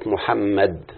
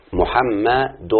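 First: Said in the usual way. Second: محمد drawn out very slowly, every syllable held; slowly spelled out. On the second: Shown as a demonstration. Teacher to pupils showing the sounds, very slow syllables. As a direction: stretch محمد so each syllable stands apart. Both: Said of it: "انظروا إلى النطق يا أولاد".

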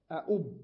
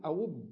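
First: أؤب said with a clear glottal stop before the "u"; أؤب as "a-ʔub", both hamzas spoken; hamza kept. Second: أوب said with a plain long "oo", no glottal stop; أوب as "awb", the second hamza turned into waw; saying the plural. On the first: Teacher showing students أؤب with the second hamza kept, louder. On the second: Teacher showing students أوب with the hamza changed to waw. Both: Shown as a demonstration. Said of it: "أقول أوب".

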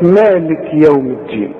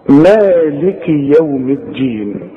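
First: مالك as "maalik", straight into يوم; wrong silent kaf vowel. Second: Slow recitation, مالك as "maa-li-ki" with the kaf voweled; two-beat madd. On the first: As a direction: mispronounce مالك, dropping the final "i". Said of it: "ويسكنها، يقول لك". (مالك بتسكين الكاف غلط) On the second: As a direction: hold the aa of مالك and keep its final "i". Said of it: "مد هذا الحرف حركتين". (مالك ببطء، مد حركتين وكاف مكسورة) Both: Shown as a demonstration.

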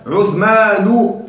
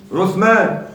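First: "عثمان" said slowly as "Uthmanu"; damma without tanween. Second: Said in the usual way. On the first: Shown as a demonstration. Teacher showing a diptote, "عثمان" drawn out to a final "-u". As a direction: stretch "عثمان" and end on u, no tanween. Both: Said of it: "بدون تنوين".

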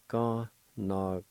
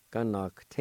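First: "Connacht" broken into separate syllables; syllable-by-syllable demo. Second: "Connacht" run together as one word; connected take of "Connacht"; joined-up pronunciation. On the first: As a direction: sound out "Connacht" piece by piece. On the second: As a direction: blend "Connacht" without gaps. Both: Shown as a demonstration. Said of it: "like this".

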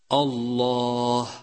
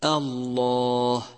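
First: الله with its opening hamza darkened, slow; heavy hamza. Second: الله with its opening hamza kept light, slow. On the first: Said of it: "ولتحذر من تفخيم الهمزة". (همزة مفخمة خطأ في الله) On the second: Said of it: "والصواب أن تقول". (همزة مرققة صحيحة في الله) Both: Shown as a demonstration.

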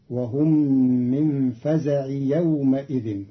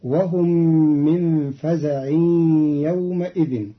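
First: فزع as faza'i, straight into يومئذ; no tanween on فزع. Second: فزع as faza'in, nasal merge into يومئذ; tanween on فزع. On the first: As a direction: join فزع to يومئذ without any nasal hold. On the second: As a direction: run فزع into يومئذ with a held nasal ghunna. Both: Shown as a demonstration. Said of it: "بدون تنوين".

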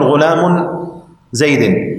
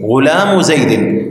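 First: "غلام" ending in -un, parted from "زيد"; wrong tanween. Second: "غلام" slowly ending in bare -u; without tanween. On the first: Teacher warning against this form, "غلام" ending in -un, then a pause. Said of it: "ولا تقول". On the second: Teacher stripping the tanween, "غلام" said slowly with final -u only. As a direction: run "غلام" into "زيد" with no n. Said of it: "تجرده من التنوين". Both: Shown as a demonstration.

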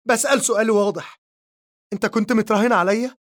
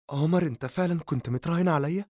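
First: Much higher, louder, fast cry with متراهن pushed up; screaming at him. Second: Hurt question rising on عمر, fast; pleading disbelief. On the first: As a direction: demand the truth in a shriek. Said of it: "لتصرخ فيه نور". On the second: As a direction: beg him to deny it, quickly. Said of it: "وتسأله برجاء". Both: A narrator's reading.

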